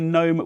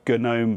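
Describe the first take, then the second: First: The word starts with an N sound, G silent. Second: The word starts with a hard G sound. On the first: "with a silent G" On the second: "because of the connection to the G N U project"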